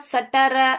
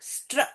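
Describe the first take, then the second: First: Vowels separate the three consonant sounds. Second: The three consonants are blended with no vowel. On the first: The speaker calls it wrong. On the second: The speaker calls it right.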